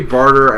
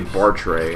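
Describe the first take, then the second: First: The name ends with an 'er' sound. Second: The name ends with an 'ay' sound. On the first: The speaker calls it wrong. "I say Barter" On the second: The speaker calls it right. "I know it's supposed to be Bartray"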